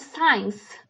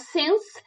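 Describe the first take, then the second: First: It is said with a long vowel, like 'science'. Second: It is said with one short vowel, like 'sense'. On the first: The speaker calls it wrong. "eu vejo muitas pessoas falando science, que acaba parecendo science" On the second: The speaker calls it right. "a palavra sense"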